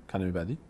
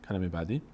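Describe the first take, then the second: Both takes have the same delivery.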